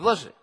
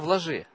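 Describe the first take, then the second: First: It is said in a harsh, challenging tone. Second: It is said in a gentle, meek tone. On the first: The speaker is taunting the doubter. The speaker calls it wrong. "он не с таким тоном говорит" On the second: The speaker cares for the doubter. The speaker calls it right. "с кротостью его обличает"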